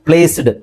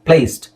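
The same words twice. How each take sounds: First: The word ends with a d sound. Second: The word ends with a t sound. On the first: The speaker calls it wrong. "ಡಿ ನೇ pronounce ಮಾಡಿದ್ರೆ" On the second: The speaker calls it right. "Real pronunciation English ಅಲ್ಲಿ ಯಾವ ತರ ಹೇಳಬೇಕು"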